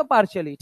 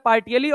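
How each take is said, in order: First: Sh sound for the ti in "partially"; claimed UK pronunciation. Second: "partially" with the t sounded, no sh; hard t in the middle of "partially"; claimed American pronunciation. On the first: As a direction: say "partially" as par-shuh-lee. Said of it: "UK वाली English में देखोगे". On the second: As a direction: say "partially" as par-tee-uh-lee. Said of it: "American English में बोलोगे". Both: Shown as a demonstration.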